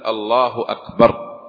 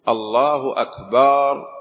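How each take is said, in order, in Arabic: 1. الصائت بعد الباء يبقى قصيراً. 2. الصائت بعد الباء يُمَدّ طويلاً. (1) "الصواب الثاني" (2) "يقول الله أكبر ولا يقول"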